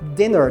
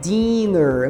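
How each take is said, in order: First: The first vowel is a short 'i'. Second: The first vowel is a long 'ee'. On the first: The speaker calls it right. "aquele I curtinho" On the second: The speaker calls it wrong. "não vá dizer dinner"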